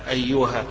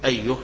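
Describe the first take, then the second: First: The word ends with a long a vowel. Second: The word ends with a bare h sound. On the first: This is a variant way of pausing on the word. "بالوقف عليها بالألف" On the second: This is the usual way of pausing on the word. "إذا وقفنا على الكلمة تقول أيه"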